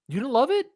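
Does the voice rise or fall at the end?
rise. It rises at the end like a surprised question.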